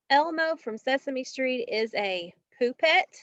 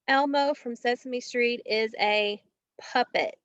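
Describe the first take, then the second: First: The first vowel sounds like 'you'. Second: The first vowel sounds like 'uh'. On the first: The speaker calls it wrong. "is he a poo pet or a puppet?" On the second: The speaker calls it right. "That's right, it is a puppet"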